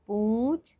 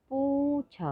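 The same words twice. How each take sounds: First: Said in the usual way. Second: High model word. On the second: Shown as a demonstration.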